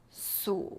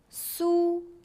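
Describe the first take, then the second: First: It is said with a low dipping pitch. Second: It is said with a high level pitch.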